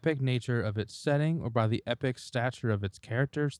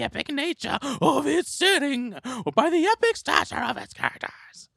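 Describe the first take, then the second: First: It is read in a bored, flat way. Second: It is read in a grand, fantastical voice.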